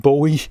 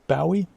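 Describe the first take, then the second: First: The first syllable rhymes with go. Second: The first syllable rhymes with now. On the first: It follows the spelling of the weapon word. "I say Bowie because I can see bow in Bowie" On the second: It follows a regional northern habit. "people from the U K, especially up north, people tend to pronounce him"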